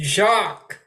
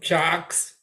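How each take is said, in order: First: The name ends without any s sound. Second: The name ends with an audible s sound. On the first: The speaker calls it right. "You don't pronounce the S" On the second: The speaker calls it wrong. "Did you call him Jox?"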